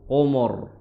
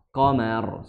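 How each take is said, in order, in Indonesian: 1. Vokal setelah m terdengar gelap dan berat. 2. Vokal setelah m terdengar ringan dan terbuka. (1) "ikut ditebalkan ... jadi mo jadinya" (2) "Padahal ma biasa ma"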